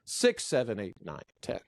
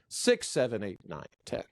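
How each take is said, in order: First: The pitch falls step by step. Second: The pitch falls step by step.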